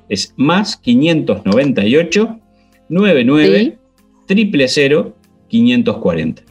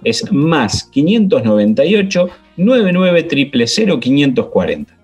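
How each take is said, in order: First: The number is said at a slower pace. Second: The number is said at a quick pace.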